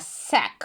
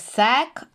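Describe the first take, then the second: First: The syllable is pronounced with a softer sound. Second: The syllable is pronounced with a harder sound. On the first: The speaker calls it right. "а сек. Більш м'ягесенько" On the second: The speaker calls it wrong. "Не сек"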